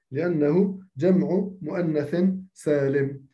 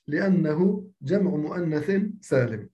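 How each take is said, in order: Both takes have the same delivery.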